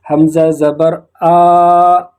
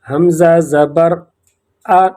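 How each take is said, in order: First: The final vowel is drawn out long. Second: The final vowel is kept short. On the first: The speaker calls it wrong. "इसको खींच कर इस तरह नहीं पढ़ेंगे। ... इसी तरह गलत है।" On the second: The speaker calls it right. "इसको खींच कर नहीं पढ़ेंगे बल्कि इसी तरह पढ़ेंगे।"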